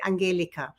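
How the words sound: The name is said the Bahamian or European way.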